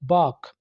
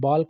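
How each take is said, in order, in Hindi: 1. इस शब्द को बिना L की ध्वनि के बोला जाता है। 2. इस शब्द को स्पष्ट L की ध्वनि के साथ बोला जाता है। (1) "इसमें एल को आपने साइलेंट रखना है" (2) "बाल्क नहीं बोलना"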